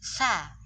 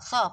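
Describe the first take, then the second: First: The vowel is thin, with spread lips like i. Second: The vowel is thick and rounded, sounding like o. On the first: The speaker calls it right. "ngomong sa itu juga meringis" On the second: The speaker calls it wrong. "bukan so, so, bukan gitu"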